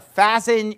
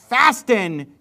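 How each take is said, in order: First: The T sound in the middle is silent. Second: The T sound in the middle is pronounced. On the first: The speaker calls it right. "You don't normally pronounce that T" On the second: The speaker calls it wrong. "I pronounced the T there just to make a point"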